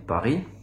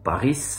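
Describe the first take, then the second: First: The final s is silent. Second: The final s is pronounced. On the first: The speaker calls it right. "on dit Paris" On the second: The speaker calls it wrong. "on ne dit pas Paris"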